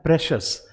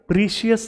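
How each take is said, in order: First: It is said as 'preshus' with a short vowel. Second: It is said as 'preeshius' with a long vowel. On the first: The speaker calls it right. "इसे बोला जाता है प्रेशस" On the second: The speaker calls it wrong. "इसे प्रीशियस नहीं बोला जाता"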